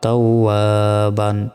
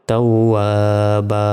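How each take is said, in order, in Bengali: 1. শব্দটি '-an' ধ্বনি দিয়ে শেষ হয়। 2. শব্দটি টানা লম্বা 'a' দিয়ে শেষ হয়। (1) "বা 2 জবর বান" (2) "এই 2 জবরে থামলে একটি জবরের উচ্চারণ হয় না এবং একালিফ টেনে পড়তে হয়"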